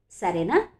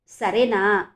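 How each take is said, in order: First: Gentle rising సరేనా?, soft and kind; soft asking. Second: Louder, pressing సరేనా? with suspicion; doubtful asking. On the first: Father softly asking his daughter to agree, gentle. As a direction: ask సరేనా? tenderly, a soft rise. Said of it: "మృదువుగా అన్నాడతను". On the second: Father pressing his silent daughter again, suspicious. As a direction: repeat సరేనా? firmer, doubting her silence. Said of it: "అనుమానంగా చూస్తూ అన్నాడు". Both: A narrator's reading.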